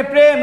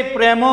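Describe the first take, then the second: First: প্রেম as one syllable, closed on the m. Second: প্রেম said as two syllables, "pre-mo"; wrongly split in two. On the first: Teacher corrects the split for students, said in one go. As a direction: say প্রেম in a single beat, no vowel after m. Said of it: "প্রেম আমরা একবারে উচ্চারণ করি". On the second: Teacher asks if we really say it so, split in two. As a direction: add a drawn final o to প্রেম. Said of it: "এরকম বলি?". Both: Shown as a demonstration.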